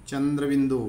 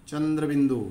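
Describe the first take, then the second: Both takes have the same delivery.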